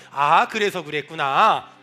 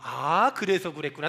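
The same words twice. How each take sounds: First: Slow model line. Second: Said in the usual way. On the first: Shown as a demonstration. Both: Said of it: "따라합시다".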